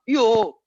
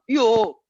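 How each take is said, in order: First: It is said Viennese style with an 'o' vowel. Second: It is said Viennese style with an 'o' vowel.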